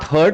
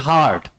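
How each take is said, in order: First: The vowel sounds like the one in 'hurt'. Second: The vowel sounds like the one in 'hard'. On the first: The speaker calls it wrong. "it is not hurt" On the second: The speaker calls it right. "it is hard"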